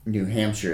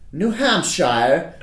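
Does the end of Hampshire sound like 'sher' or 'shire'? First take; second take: sher; shire. First: The last part sounds like a short 'sher'. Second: The last part sounds like 'shire', as in Hobbit. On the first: This is the everyday way to say it. "New Hampshire is how I say it" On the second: It sounds posh or fancy. "That sounds like you're fancy"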